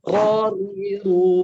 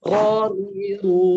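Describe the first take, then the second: First: The r is soft, with little vibration. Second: The same.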